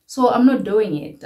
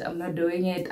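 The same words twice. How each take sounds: First: So I'm not doing it, much louder with stress on I'm; loud, decisive refusal; emphatic. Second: Said in the usual way. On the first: Real, not acted. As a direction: blurt out I'm firmly. Repeats line with emphasis.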